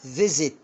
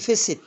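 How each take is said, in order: First: The middle consonant is a buzzing z sound. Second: The middle consonant is a hissing s sound. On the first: The speaker calls it right. "عشان وقع ما بين الاي والاي" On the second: The speaker calls it wrong. "ما بقولش"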